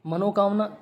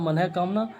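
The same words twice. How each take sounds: First: "मनोकामना" with an o after n; wrong form. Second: "मनः कामना" with breathed visarga after मन; correct form. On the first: Teacher quoting the mistake, o vowel. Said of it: "शब्द नहीं होता". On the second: Teacher correcting students, visarga sounded. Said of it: "ये होता है". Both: Shown as a demonstration.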